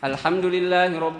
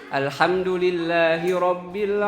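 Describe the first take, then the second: First: It is recited at a very fast pace. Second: It is recited at a moderately fast pace. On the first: This is the fastest recitation style. "yang paling cepat namanya hadir" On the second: This is the medium recitation style used by imams. "tadwir yang agak cepat"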